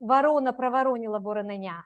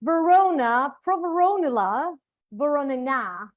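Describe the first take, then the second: First: It is said with a native accent. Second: It is said with an English-like accent.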